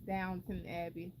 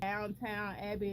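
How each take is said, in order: First: The first word is said as downton. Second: The first word is said as downtown. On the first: The speaker calls it right. "it's Downton Abbey" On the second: The speaker calls it wrong. "I always want to say Downtown"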